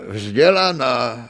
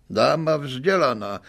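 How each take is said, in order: First: "vzdělaná" drawn out slowly with a long final a, louder; mocking stress. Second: Said in the usual way. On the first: A narrator's reading. Accused man sneers at the lady's airs to the court, drawn-out "vzdělaná". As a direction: stretch "vzdělaná" sarcastically. Swindler mocks the lady.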